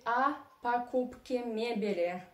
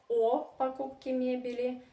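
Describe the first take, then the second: First: The first vowel sounds like a reduced 'a'. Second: The first vowel sounds like a full 'o'. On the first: The speaker calls it right. "«о» unstressed you pronounce like «а». That's why you say" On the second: The speaker calls it wrong.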